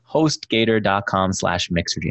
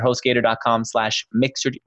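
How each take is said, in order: First: It is said at a slower pace. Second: It is said at a faster pace.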